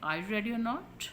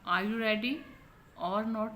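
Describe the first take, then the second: First: The word 'or' is said short and weak. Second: The word 'or' is said fully and clearly. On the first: The speaker calls it right. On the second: The speaker calls it wrong.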